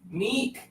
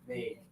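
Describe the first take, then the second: First: The vowel is a high, tense 'ee' sound. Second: The vowel is lower, looser, with extra air. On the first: The speaker calls it wrong. "A lot of people call me Neek, but my name is not Neek" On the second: The speaker calls it right. "the single I usually indicates lower tongue and more air"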